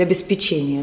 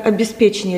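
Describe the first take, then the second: First: "обеспечение" stressed on ЧЕ; stress variant. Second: "обеспечение" stressed on ПЕ; stress variant. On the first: Interviewer cites the other variant, stress on ЧЕ in "обеспечение". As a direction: put the stress on the fourth syllable of "обеспечение". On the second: Interviewer cites one of two variants, stress on ПЕ in "обеспечение". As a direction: put the stress on the third syllable of "обеспечение". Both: Shown as a demonstration.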